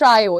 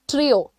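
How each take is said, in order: First: The first vowel sounds like 'eye'. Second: The first vowel sounds like 'ee'. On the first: The speaker calls it wrong. "It's not ट्रायो" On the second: The speaker calls it right. "It is ट्रियो"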